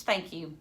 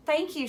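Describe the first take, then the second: First: Said in the usual way. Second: Higher, holding back excitement; mock serious thank you; trying to sound serious. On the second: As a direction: force a serious tone. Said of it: "trying to make her voice sound serious".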